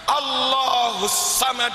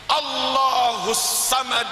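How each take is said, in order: No difference in how they are said.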